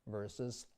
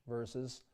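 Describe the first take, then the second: No difference in how they are said.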